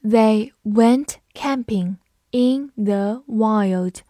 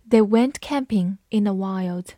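First: Very slow, each word drawn out; slow teacher reading. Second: Said in the usual way. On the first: Shown as a demonstration. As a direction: read it slowly for learners. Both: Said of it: "我们还是慢读一遍".

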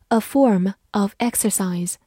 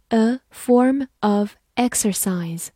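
First: Said in the usual way. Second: Slow, "form" and "exercise" set apart; slow model reading. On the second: Shown as a demonstration. Teacher repeats an example for learners, slow model reading. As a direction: say "a form of exercise" slowly, word by word.

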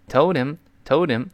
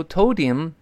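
First: "told him" linked as "tol-dem", short open i; correct open vowel. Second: "told him" linked with a tight ee-like i, "tol-deem"; wrong vowel. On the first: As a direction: slowly say "told him", h dropped, vowel relaxed. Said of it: "是发哎". (told him连读，元音发“哎”) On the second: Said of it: "但注意不能读". (错误示范：told him发成“一”) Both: Shown as a demonstration.

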